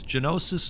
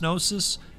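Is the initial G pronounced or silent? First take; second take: pronounced; silent. First: The initial G is pronounced before the n. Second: The initial G is silent before the n.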